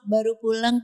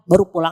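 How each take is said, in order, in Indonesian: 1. Nadanya manis dan genit. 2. Nadanya kasar dan marah-marah. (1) "banyak yang manja sama suami orang" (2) "Sama suami sendiri malah tegas, galak gitu Bu"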